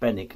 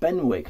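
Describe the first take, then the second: First: The W sound in the middle is left out. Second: The W sound in the middle is pronounced. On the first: The speaker calls it right. "there is no uh, W sound in the word Benwick. So people have told me that the the pronunciation correctly is Benwick" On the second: The speaker calls it wrong. "not Benwick, like I've been saying"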